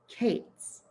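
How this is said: It is said in the northern Israel way.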